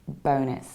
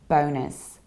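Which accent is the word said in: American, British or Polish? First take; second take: American; American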